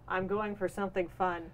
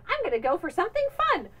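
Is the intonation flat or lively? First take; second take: flat; lively. First: The pitch stays flat with little variation. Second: The pitch moves with lively, varied intonation. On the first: This is how it actually comes out. "but it comes out as" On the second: This is how the speaker meant it to sound. "in my head, I it sounded like"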